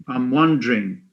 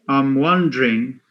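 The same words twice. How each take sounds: Both takes have the same delivery.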